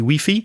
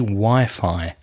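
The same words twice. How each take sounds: First: It is said with a Spanish pronunciation. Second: It is said with an English pronunciation. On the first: The speaker calls it wrong. "You say Wi-Fi" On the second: The speaker calls it right. "we say Wi-Fi"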